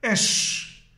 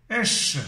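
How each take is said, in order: First: Esh whispered, breath only, no voice; whispered pronunciation. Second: Esh said aloud in a plain voice; voiced pronunciation. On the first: Teaching the Bible class how to say Esh, whispered. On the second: Showing the Bible class the word Esh, spoken plainly. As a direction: repeat Esh clearly, fully voiced. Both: Shown as a demonstration. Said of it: "Et ça se prononce".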